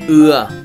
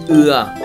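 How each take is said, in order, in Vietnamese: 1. Nguyên âm được kéo dài. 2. Nguyên âm được kéo dài.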